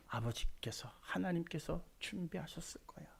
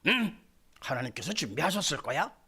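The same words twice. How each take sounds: First: Much softer, unvoiced, in a broken whisper; anguished whisper. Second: Light, casual, upbeat, rising on 준비하셨을 거야; breezy wrong reading. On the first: Abraham answering his son while his heart is torn, whispered. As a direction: force the words out through inner agony. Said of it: "창자가 비틀어지는 대답 아닙니까?". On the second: Preacher showing how not to read Abraham's answer, lightly. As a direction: toss it off carelessly, as if it's nothing. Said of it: "이렇게 읽으면 안 되지요". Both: Shown as a demonstration.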